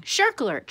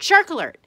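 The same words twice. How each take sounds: First: High, loud panicky yell; yelling alarm. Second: Even louder repeat of the alarm yell. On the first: Blowfish warns the tank of a shark, yelling. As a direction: sound the alarm, shrill and high. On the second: Blowfish repeats its shark warning, shouting louder. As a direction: shout it at full blast the second time. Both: A narrator's reading. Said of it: "The blowfish began yelling".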